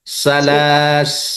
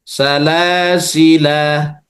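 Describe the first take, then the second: First: The word stops short on the consonant s. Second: The word ends on a long final vowel. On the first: "disukunkan sinnya, maka bacanya salas" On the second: "Kalau dibaca panjang, otomatis yang berlaku adalah huruf lam"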